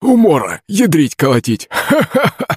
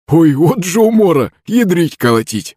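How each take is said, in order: First: High, laughing mimic of an old man; parroting Zakharych. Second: Put-on laughing old man. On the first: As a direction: shout it back like a parrot copying. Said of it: "закричал голосом Захарыч Кузьма". (высоким голосом передразнивает старика со смехом)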